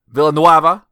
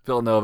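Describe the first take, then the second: First: The middle is said as 'nway', following the spelling. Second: The middle is said as 'no', like Nova. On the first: The speaker calls it wrong. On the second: The speaker calls it right.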